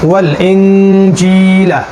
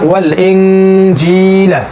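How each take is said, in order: No difference in how they are said.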